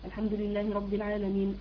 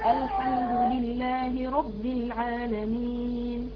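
First: It is recited at a fast pace. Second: It is recited at a slow pace. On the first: "الحذر كده قراءة سريعة" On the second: "طيب التحقيق"

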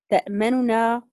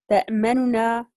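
The two takes are said the same way.

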